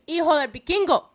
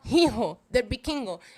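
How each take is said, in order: First: The first word begins with no H sound. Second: The first word begins with an audible H sound. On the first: The speaker calls it right. "It is" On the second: The speaker calls it wrong. "do not pronounce the H. It is not"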